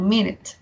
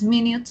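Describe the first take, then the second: First: The second vowel sounds like an E. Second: The second vowel sounds like a U. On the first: The speaker calls it right. "la U la pronuncian como una E" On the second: The speaker calls it wrong. "No es minute"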